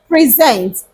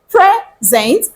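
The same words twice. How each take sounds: First: The stress is on the second syllable. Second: The stress is on the first syllable. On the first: It is a verb meaning to give. "you write the first syllable using small letter" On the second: It is a noun meaning a gift. "The first one means a gift"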